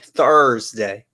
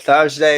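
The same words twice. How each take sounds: First: The R sound after the vowel is pronounced. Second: The R sound after the vowel is dropped. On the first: The speaker's own way of saying it. "we really pronounce our R's over here" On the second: Someone else said it. "he'll be like Thur- Thursday"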